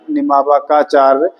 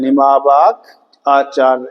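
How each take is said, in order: First: The two parts are run together as one word. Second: The two parts are said as separate words.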